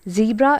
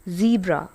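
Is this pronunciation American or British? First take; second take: American; American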